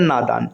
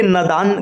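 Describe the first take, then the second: First: नादान said as "naadaan", long first aa; correct long vowel. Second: नादान said as "nadaan", short first a; wrong short vowel. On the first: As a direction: lengthen the first syllable of नादान to "naa". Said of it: "इसका सही स्वरूप होता है". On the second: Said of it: "गलत शब्द है". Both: Shown as a demonstration.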